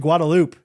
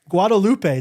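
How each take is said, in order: First: The name has an anglicized local pronunciation. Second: The name has a Spanish-style pronunciation.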